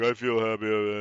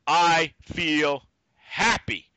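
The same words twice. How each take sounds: First: It is said carelessly, without clear enunciation. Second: It is said with each word clearly enunciated.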